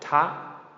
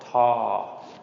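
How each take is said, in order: First: The pitch is high on a short vowel. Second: The pitch stays level and mid on a long vowel. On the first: "short high tone" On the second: "long mid-tone"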